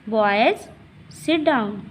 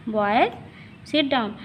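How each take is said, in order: Both takes have the same delivery.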